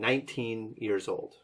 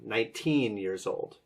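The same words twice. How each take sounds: First: Both syllables get equal stress. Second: The stress falls on the second syllable. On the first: The speaker calls it right. "should have equal emphasis on both syllables" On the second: The speaker calls it wrong. "I think you you emphasized the second one"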